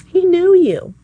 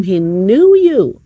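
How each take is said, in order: First: An excited cry on the repeat; soaring repeat. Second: Said in the usual way. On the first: Shown as a demonstration. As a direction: jump much higher on the repeat. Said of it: "repeated line, second take". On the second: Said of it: "repeated line, first take".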